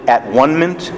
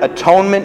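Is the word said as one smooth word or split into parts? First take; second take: split; smooth. First: It is split into three separate parts. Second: It is said as one smooth word. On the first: "You can also pronounce it at-one-ment" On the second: "you know that word atonement?"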